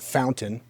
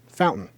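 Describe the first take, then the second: First: The middle T is clearly pronounced. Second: The middle T is dropped. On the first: The speaker calls it wrong. "It's not fountain" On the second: The speaker calls it right. "you don't pronounce the T's in the middle of words"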